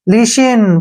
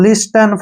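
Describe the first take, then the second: First: The t sound is left out. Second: The t sound is clearly pronounced. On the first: The speaker calls it right. "ऐसे पढ़ना है" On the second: The speaker calls it wrong. "गलत हो जाएगा ना"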